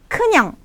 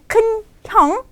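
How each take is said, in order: First: The n links into the second syllable smoothly. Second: The n stays with the first syllable, separately. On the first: The speaker calls it right. "Karena ada konsonan akhirnya depan kan, jadi kita vokalnya panjang" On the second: The speaker calls it wrong. "Bukannya 큰 형"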